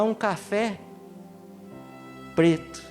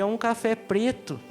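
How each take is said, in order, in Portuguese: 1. Há uma pausa entre café e preto. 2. Segue direto, sem pausa antes de preto. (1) "Coloca uma vírgula na frente do café para você ver" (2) "me vê um café preto"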